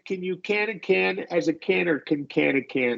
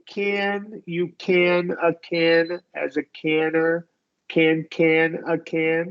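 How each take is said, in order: First: The word 'can' is reduced to a weak vowel. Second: Every 'can' is said in full, slowly. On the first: "if I, I were going to reduce this, I would say" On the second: "let's do it not reducing"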